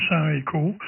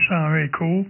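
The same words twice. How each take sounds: The two takes are said the same way.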